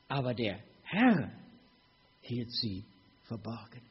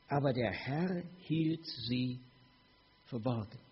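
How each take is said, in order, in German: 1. Der Satz wird mit stark verschobener Betonung gesprochen. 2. Der Satz wird mit normaler, neutraler Betonung gesprochen.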